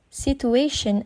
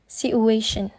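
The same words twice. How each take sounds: First: Said in the usual way. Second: "situation" said as "si-u-ation"; ch sound deleted. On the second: Shown as a demonstration. Student demonstrating elision, "situation" without its ch. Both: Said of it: "ch sound is deleted by the speaker".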